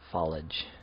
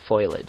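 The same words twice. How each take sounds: First: It is said with two syllables, no separate E. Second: It begins with the sound 'foil', letters swapped. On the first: "I've heard people say foliage recently" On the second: "that's just reversing the letters that are actually in the word"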